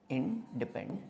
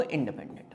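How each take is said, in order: First: independent broken into in, depen, dent with pauses; low, soft, chunked independent; syllable-by-syllable dictation. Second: Said in the usual way. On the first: Shown as a demonstration. Repeats term in separated parts.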